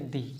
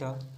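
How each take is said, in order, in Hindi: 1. यह शब्द लंबे 'ee' स्वर पर खत्म होता है। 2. यह शब्द एक छोटे, हल्के स्वर पर खत्म होता है। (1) "और कभी इसको पढ़ेंगे दी" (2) "कभी इसको पढ़ेंगे द"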